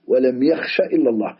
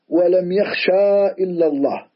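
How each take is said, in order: First: The vowel at the end of yakhsha is short. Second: The vowel at the end of yakhsha is long. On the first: The speaker calls it right. "وعلامة جزمه حذف حرف العلة" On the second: The speaker calls it wrong. "لا نقول ولم يخشى إلا الله، هذا لحن"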